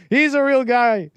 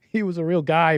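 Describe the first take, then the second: First: Loud, high, slowed-down protest; emotional outburst. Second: Said in the usual way. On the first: Acted. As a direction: cry it out, worked up and insistent. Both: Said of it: "I get emotional".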